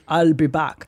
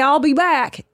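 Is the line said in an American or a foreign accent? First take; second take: foreign; American. First: It is said with a foreign, non-American accent. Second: It is said with a plain American accent. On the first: This is the famous movie delivery everyone loved. The speaker calls it right. "The iconic line of when he goes" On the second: This delivery would not have become iconic. The speaker calls it wrong. "If he had just said that like an American"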